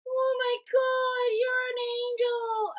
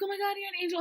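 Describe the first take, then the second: First: Very high, drawn-out wonder; imitated tripping girl's high coo; awestruck roommate. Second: High, quick gush; roommate's awe, retold briskly; imitated amazement. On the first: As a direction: stretch it out in dazed awe. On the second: Same quote retold quicker.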